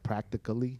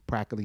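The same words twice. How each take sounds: First: The word is pronounced fully with every syllable. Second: The word is clipped and not fully pronounced. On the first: It is the proper English pronunciation. "if I said it right" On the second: It keeps the beat of the verse. "I say practically"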